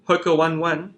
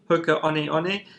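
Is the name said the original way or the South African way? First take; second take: South African; original. First: The name is said the local South African way. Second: The name is said the brand's original way. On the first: The speaker calls it wrong. "in South Africa, we say" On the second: The speaker calls it right. "the correct pronunciation is"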